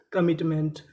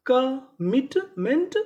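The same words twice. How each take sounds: First: Said in the usual way. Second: commitment stretched slowly, rising at the end; very slow syllable by syllable. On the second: Shown as a demonstration. Teacher to students, dictating the word very slowly. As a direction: pull commitment apart slowly. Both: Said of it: "तो पूरी meaning".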